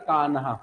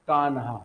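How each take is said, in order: Both takes have the same delivery.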